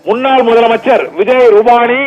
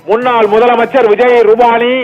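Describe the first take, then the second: No difference in how they are said.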